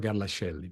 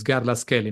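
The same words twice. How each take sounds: First: Garlascelli said "Garla-shelli", soft sh; English mispronunciation. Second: Garlascelli said "Garlas-kelli", hard k; Italian pronunciation. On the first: Guest showing the host what to avoid, English mispronunciation. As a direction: say Garlascelli with sh in place of k. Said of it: "instead of she as we pronounce it". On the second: Guest giving the correct surname, Italian pronunciation. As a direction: say Garlascelli with a k before "elli". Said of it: "pronounced che". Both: Shown as a demonstration.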